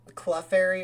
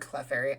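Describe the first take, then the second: First: The first vowel sounds like 'uh'. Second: The first vowel sounds like 'eh'. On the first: "the Cle can sound like an uh" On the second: "or an eh"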